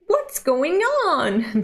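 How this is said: It is said in Power's character voice.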